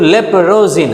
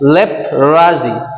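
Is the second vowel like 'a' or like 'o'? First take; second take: o; a. First: The second vowel sounds like 'o'. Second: The second vowel sounds like 'a'. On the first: The speaker calls it wrong. "এটা কিন্তু লেপ্রোজি না" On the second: The speaker calls it right. "এখানে দেখো লেপ্রাজি"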